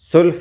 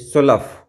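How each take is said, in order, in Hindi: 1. यह एक अक्षर में बोला जाता है, 'sulf'। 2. यह दो अक्षरों में बोला जाता है, 'su-laf'। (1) "सुल्फ नहीं"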